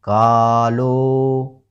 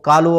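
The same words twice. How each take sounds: First: The vowels are drawn out with a rhythmic lilt. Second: It is said flatly with no drawn-out vowels. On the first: The speaker calls it right. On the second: The speaker calls it wrong.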